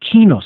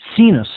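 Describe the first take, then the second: First: The word begins with a K sound. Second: The word begins with an S sound. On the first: The speaker calls it right. "In Latin, it would actually be pronounced quinus" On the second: The speaker calls it wrong. "as most people would pronounce it"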